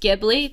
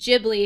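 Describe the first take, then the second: First: The name is said as its Italian spelling suggests. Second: The name is said as Japanese speakers say it. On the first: This follows the word's original spelling. "how it's spelled, Ghibli should be pronounced Ghibli because it's from an Italian word" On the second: This is how the name is used in Japan. "now it's technically pronounced Ghibli"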